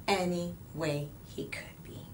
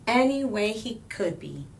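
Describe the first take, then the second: First: Softer whispered repeat; hushed closing echo. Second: Said in the usual way. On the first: A narrator's reading. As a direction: whisper it back like a secret. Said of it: "repeated softly". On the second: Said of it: "repeat whispered".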